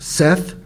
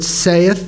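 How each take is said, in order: First: The vowel sounds like the one in 'set'. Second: The vowel sounds like the one in 'say'. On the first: The speaker calls it right. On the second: The speaker calls it wrong.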